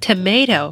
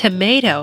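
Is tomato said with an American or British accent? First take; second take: American; American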